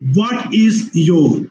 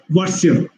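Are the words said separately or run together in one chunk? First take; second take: separately; run together. First: Each word is said separately and fully. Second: The words are squeezed together into one chunk.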